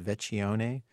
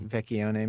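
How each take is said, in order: First: "Vecchione" tentatively as vet-chee-OH-nay. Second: "Vecchione" as vek-ee-OH-nay. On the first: Host guessing at a student's surname, Vecchione said with CH. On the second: Host taking up a correction, Vecchione said with hard K. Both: Shown as a demonstration. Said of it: "maybe it's pronounced".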